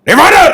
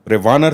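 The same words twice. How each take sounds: First: It is said loudly at a high pitch. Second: It is said slowly and quietly.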